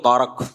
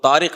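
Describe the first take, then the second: First: The second syllable has an a vowel. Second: The second syllable has an i vowel. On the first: "वो जबर लगाते हैं" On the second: "तारिक नहीं"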